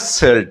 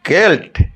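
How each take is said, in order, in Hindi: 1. शब्द 's' ध्वनि से शुरू होता है। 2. शब्द 'k' ध्वनि से शुरू होता है। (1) "निश्चय हमें एइटा को कहबा सेल्ट" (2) "ना एइटा एक्सेप्शन केल्ट"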